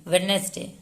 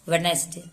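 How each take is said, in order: The two takes are said the same way.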